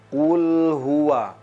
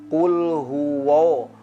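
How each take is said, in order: First: The wa is pronounced thin and light. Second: The wa is pronounced thick and heavy. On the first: The speaker calls it right. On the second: The speaker calls it wrong. "Seolah-olah wa menjadi wa, karena ditarik tertarik dengan tebalnya lafaz huruf lam"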